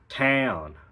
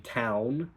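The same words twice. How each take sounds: First: The vowel is strongly nasal, sounding Australian. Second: The vowel is plain, not nasal.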